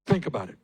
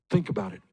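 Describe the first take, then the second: First: Said in the usual way. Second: Breathy whisper, almost voiceless. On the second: Real, not acted. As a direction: drop to a hush to pull them in. Urging the crowd to reflect.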